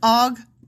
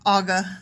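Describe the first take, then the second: First: The two words are said clearly and separately. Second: The two words blur into one, like Aga. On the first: The speaker calls it right. "It's Og of" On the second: The speaker calls it wrong. "like Aga"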